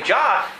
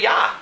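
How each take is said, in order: First: The name begins with a J sound. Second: The name begins with a Y sound. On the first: "today in English we say Jah" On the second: "then you'd say Yah"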